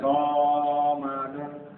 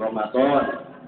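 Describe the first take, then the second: First: The last vowel is cut short. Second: The last vowel is drawn out long. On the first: The speaker calls it wrong. "jangan sampai Ramadan. ... Tapi itu akhirnya salah" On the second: The speaker calls it right. "nah gitu Ramadan, doanya panjang"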